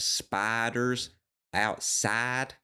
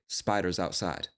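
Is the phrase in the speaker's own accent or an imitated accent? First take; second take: imitated; own. First: The phrase imitates the other woman's accent. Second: The phrase is in the speaker's own accent. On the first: "even the word after that" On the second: "or I would say spiders outside"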